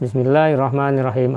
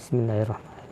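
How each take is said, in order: First: It is recited loudly and audibly. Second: It is recited softly and quietly. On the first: "jahar yang dibaca dengan keras" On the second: "ada yang pelan"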